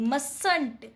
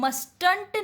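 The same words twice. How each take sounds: First: Mustn't with a silent t, said mussn't; correct pronunciation. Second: Mustn't with the t sounded, must-unt; wrong pronunciation. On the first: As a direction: drop the first t, say mustn't as mus-nt. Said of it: "तो आप इसको read करते हैं एम यू एस एन टी". (mustn't को silent t के साथ, मसन्ट बोलें) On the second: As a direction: pronounce mustn't wrongly with a clear t in the middle. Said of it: "इसको हम mustn't नहीं पढ़ते हैं". (mustn't को बीच वाला t बोलकर ग़लत उच्चारण) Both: Shown as a demonstration.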